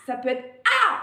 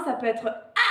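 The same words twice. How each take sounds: First: Louder demo cry. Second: Light demo cry. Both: Shown as a demonstration. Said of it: "le cri que vous voulez".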